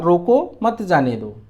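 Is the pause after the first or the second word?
first. There is a pause right after the first word.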